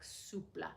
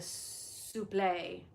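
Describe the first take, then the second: First: The word ends with a 'plah' sound. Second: The word ends with a 'flay' sound. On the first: The speaker calls it right. "but it's actually like soupla" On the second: The speaker calls it wrong. "a lot of people ... often say uh uh like a souffle"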